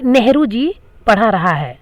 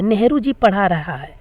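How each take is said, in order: First: Wrong sentence read out slowly, word by word; slow quoted example. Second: Said in the usual way. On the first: Shown as a demonstration. Teacher reading a wrong sentence aloud to students, slow and deliberate. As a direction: spell out the faulty sentence for the class. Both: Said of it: "देखिए बोलने से ही लग रहा है".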